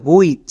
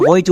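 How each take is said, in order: First: হুইচ with a tight 'oo' onset, like 'which'; correct sight-word pronunciation. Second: হইচ built from ho, short i and ch; wrong rule-based pronunciation. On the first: Teacher corrects students' reading, হুইচ with 'u' glide. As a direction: say হুইচ with 'u' gliding into i, 'hu-ich'. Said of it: "এর উচ্চারণটা হবে হুইচ". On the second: Teacher shows the reading to avoid, হইচ with 'o'. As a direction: say হইচ with 'o' before the i, 'ho-ich'. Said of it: "আমরা হইচ উচ্চারণ করি না". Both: Shown as a demonstration.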